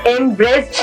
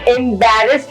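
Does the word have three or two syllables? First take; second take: two; three. First: The word is squeezed into two syllables. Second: The word is said with three syllables. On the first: The speaker calls it wrong. "एम्ब्रेस्ड नहीं होगा" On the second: The speaker calls it right. "एम्बैरेस्ड होगा"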